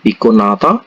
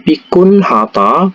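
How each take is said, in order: First: The h sound is dropped. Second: The h sound is pronounced clearly.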